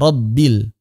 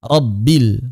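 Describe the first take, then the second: No difference in how they are said.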